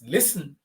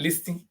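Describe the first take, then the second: First: The T in the middle is silent. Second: The T in the middle is pronounced. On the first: The speaker calls it right. "The T is very silent" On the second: The speaker calls it wrong. "it's not listing"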